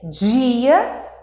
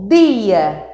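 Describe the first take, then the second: First: The word begins with a j-like sound. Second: The word begins with a plain d sound. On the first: "que é esse aqui, ó, G, ó o som" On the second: "com aquela fala bacana, aconchegante no do Nordeste"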